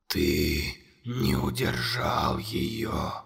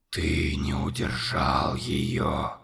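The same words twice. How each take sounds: First: Very low, slow, whispered monster voice. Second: Very low, slow, whispered accusation; whispered monster. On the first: Monster whispering accusations to Conor, low and slow. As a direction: loom over the boy and breathe every word. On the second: Monster whispering accusation to Conor. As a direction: hiss the accusation. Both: A narrator's reading.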